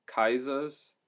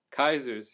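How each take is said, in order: First: "Kaiser's" with the final r dropped; German-style pronunciation. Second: Said in the usual way. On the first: Shown as a demonstration. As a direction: say "Kaiser's" like KAI-zuhz. Store name said two ways.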